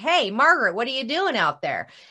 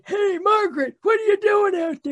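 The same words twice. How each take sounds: First: It is said in her plain voice. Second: It is said in an old man's voice.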